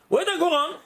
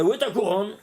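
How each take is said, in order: First: "Où est ta couronne?" asked higher and pressing, leaning on "ta"; "ta" stressed in a higher, insistent repeat. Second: Said in the usual way. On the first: Shown as a demonstration. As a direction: press the question home, higher.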